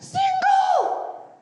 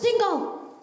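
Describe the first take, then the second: First: The word is shouted most loudly. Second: The word is shouted less loudly.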